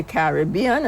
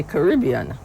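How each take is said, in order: First: "Caribbean" stressed on BE, Carib-BE-an; stress on third syllable. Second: "Caribbean" stressed on RIB, Ca-RIB-bean; stress on second syllable. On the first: Explaining the two ways people say it, "Caribbean" stressed on BE. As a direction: say "Caribbean" with the weight on the BE. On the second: Explaining the other way people say it, "Caribbean" stressed on RIB. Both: Shown as a demonstration. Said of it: "some people say Caribbean".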